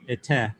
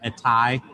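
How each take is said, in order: First: The final syllable is said like 'teh'. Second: The final syllable is said like 'tay'. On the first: "Kep is ete" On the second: "Erasmian pronunciation"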